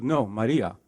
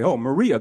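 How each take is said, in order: First: "Maria" with a tapped r, mah-DEE-ah; Spanish "Maria", flicked r and open a; correct pronunciation. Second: "Maria" with an English r, muh-REE-uh; wrong pronunciation. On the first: Woman correcting how her name is said, Spanish pronunciation. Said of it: "She goes". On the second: Stranger mispronouncing a workshop woman's name, anglicised. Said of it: "that person would say". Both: Retold or imitated.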